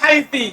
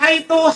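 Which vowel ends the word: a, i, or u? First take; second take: i; u. First: The word ends in an i vowel. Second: The word ends in an u vowel. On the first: "haiti dengan kasro" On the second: "haitu bidom dengan dhamma"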